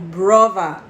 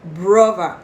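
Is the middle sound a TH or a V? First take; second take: V; V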